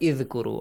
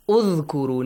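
First: The word begins with an i vowel. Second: The word begins with a u vowel. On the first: The speaker calls it wrong. "not Idhkuru" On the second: The speaker calls it right. "A Dhamma on the top? Udhkuru"

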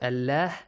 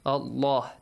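First: The L sound is light and thin. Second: The L sound is heavy and full. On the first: The speaker calls it wrong. "not Allah" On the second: The speaker calls it right. "Allah is pronounced heavily. Allah, this way"

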